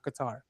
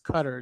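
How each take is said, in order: First: It is not pronounced like the word cutter. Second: It is pronounced like the word cutter. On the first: The speaker calls it wrong. "It's not Qatar" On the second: The speaker calls it right. "That is the correct pronunciation"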